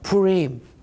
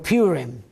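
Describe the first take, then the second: First: The name is said in a non-American way. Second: The name is said the American way.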